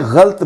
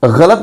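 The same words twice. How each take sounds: First: गलत as ghalt, one syllable; mispronunciation demo. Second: गलत as gha-lat, two syllables; correct pronunciation. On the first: Teacher recalling the second form, गलत as ghalt. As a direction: drop the a after ल in गलत, ghalt. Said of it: "दो तरह से इसका तलफ़ुज़". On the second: Teacher recalling the first of two forms, गलत as gha-lat. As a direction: sound the a after ल in गलत. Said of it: "इसी लफ्ज़ को मैंने". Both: Shown as a demonstration.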